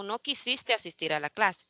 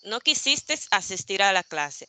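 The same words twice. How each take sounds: First: "quisiste" with no final s; quisiste without s. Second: "quisistes" ending in s. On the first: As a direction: say "quisiste" ending in e. ("quisiste" sin s final) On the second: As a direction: add an s to "quisistes". ("quisistes" con s final) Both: Shown as a demonstration. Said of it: "la terminación verbal estes o este".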